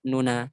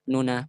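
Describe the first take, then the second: Both takes have the same delivery.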